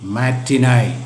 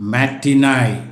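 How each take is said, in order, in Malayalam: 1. ഈ വാക്ക് 'eye' ശബ്ദത്തിലാണ് അവസാനിക്കുന്നത്. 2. ഈ വാക്ക് 'eye' ശബ്ദത്തിലാണ് അവസാനിക്കുന്നത്.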